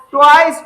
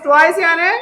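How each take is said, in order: First: Twice said louder, leaning on the word; the word twice pushed out for the class; stressed twice. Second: Said in the usual way. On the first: Shown as a demonstration. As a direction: hit twice hard so it sticks.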